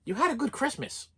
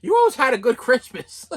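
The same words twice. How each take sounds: First: Soft, offhand quote of the mother, quieter; mother brushing it off lightly; mother's dismissive reply. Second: Laughing bitterly. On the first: Retold or imitated. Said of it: "her response to that was". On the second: Real, not acted. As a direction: repeat it through a laugh. Bitter laughing repeat of mother.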